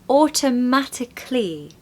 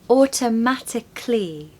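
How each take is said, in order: First: The ending is said as a short 'clee' sound. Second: The ending is said as a short 'clee' sound.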